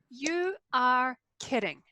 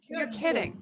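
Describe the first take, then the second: First: 'You are' is said as two full words. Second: 'You are' is contracted into one syllable. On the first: The surprise is expressed more strongly. "puts a little bit more emphasis" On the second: The surprise is expressed less strongly. "When you use the contraction, it's not as strong"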